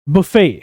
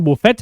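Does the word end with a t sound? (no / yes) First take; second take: no; yes. First: The word ends in a vowel, no t. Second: The word ends with a t sound. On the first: The speaker calls it right. "Correct pronunciation" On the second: The speaker calls it wrong. "Wrong pronunciation"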